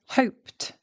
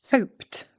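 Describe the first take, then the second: Both takes have the same delivery.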